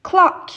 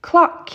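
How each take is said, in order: Both takes have the same delivery.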